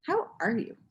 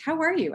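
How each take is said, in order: First: Friend's pointed question. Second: High, light friend's greeting; high-pitched casual hello question. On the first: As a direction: ask it deliberately, seeing through the act. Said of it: "she just looked at me and she was like". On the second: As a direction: ask it high, like a friend checking in. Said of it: "and she's like". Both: Retold or imitated.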